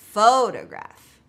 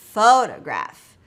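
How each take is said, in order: No difference in how they are said.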